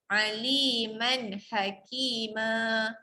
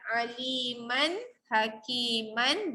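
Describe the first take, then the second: First: The last word ends on a short vowel. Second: The last word ends with an n sound. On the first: This is how it is read when stopping. "jadi aliman hakima" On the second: This is the form written in the book. "Pada buku perkataan aliman hakiman"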